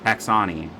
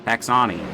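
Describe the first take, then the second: First: The name is said to rhyme with Dasani. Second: The name is said to rhyme with Dasani.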